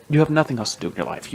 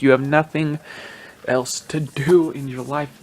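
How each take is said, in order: First: Rattled-off, exasperated jab; quick scolding. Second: Drawn-out, exasperated rebuke; slow emphatic scolding. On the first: Podcaster telling off the media, quick exasperated scolding. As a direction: say it fast, fed up. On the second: Podcaster repeating his rebuke to media, slow emphatic scolding. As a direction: spell it out slowly and firmly. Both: Real, not acted.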